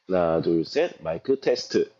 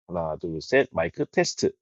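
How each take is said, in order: First: The voice sounds slightly duller and less distinct. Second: The voice sounds slightly crisper and more distinct. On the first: The speaker calls it wrong. "현재 저는 큐씨 울트라 일으로 녹음 중입니다" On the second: The speaker calls it right. "큐씨 울트라 이가 목소리가 좀 더 선명해졌다고 생각하거든요"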